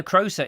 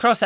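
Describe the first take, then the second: First: "Crosser" corrected to "Croser", long O; corrected name. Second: "Crosser" with a short O; mispronounced name. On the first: Correcting the misread name, long O in "Croser". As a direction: say "Croser" with the O of "grocer". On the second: Reading a viewer's message, name misread as "Crosser". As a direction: say "Crosser" to rhyme with "tosser". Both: Real, not acted. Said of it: "Croser even".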